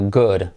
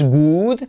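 First: The vowel is short and relaxed. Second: The vowel is long, as in food. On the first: The speaker calls it right. "sino good" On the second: The speaker calls it wrong. "No es good, como food"

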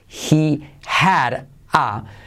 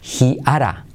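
First: The h and d sounds are both pronounced. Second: The h is dropped; d becomes a soft tap.

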